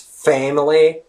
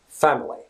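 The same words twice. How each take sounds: First: The first vowel is an 'e' sound. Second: The first vowel is an open 'a' sound. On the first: "pronounced with the e. It's a distinct e sound" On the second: "In British English, it's pronounced family"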